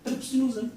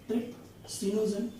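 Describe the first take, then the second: First: Said in the usual way. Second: Each syllable of trypsinogen said slowly and clearly; slow dictation. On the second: Shown as a demonstration. Teacher dictating trypsinogen slowly to students, syllable by syllable. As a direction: spell trypsinogen out slowly for notes. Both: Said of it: "सबसे पहला मैं आपको यहाँ पे लिखता हूँ".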